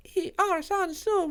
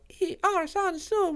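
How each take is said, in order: First: It is said in a small cartoon character voice. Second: The same.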